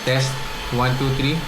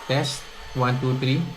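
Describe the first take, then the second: First: Background vacuum noise is moderately reduced. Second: Background vacuum noise is strongly reduced. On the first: "nakaset to medium" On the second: "nakaset po to high or strong"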